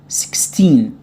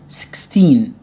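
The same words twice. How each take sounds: No difference in how they are said.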